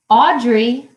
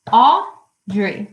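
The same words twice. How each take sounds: First: Said in the usual way. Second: AUDREY broken in two, Au... drey; syllable by syllable. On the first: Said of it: "So for example". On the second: Shown as a demonstration. Teacher showing the class two syllables, syllable by syllable. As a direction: say Audrey as two separate beats. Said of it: "has two syllables".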